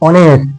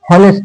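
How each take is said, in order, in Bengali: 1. শব্দটি একটি স্বরধ্বনি দিয়ে শুরু হয়, এখানে h নেই। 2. শব্দটি একটি স্পষ্ট h ধ্বনি দিয়ে শুরু হয়। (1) "এইচ এর উচ্চারণটা অ এর মতন হয়েছে" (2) "হনেস্ট না"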